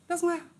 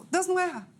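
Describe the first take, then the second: First: Higher, lit up with relief; joyful realization. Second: Firm joyful affirmation. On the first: Girl telling herself God makes no mistakes, higher and joyful. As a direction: say it like a key just turned. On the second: Girl repeating to herself God makes no mistakes, higher and bolder. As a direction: say it again with growing certainty. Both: Retold or imitated.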